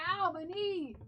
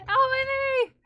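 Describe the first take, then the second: First: Pained ow after hitting the knee; banged knee. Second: High loud yelp of pain; banged knee yelp. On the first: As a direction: wince through it. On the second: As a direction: yelp it out, really hurting. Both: Real, not acted. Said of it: "I ran my knee into my door so hard".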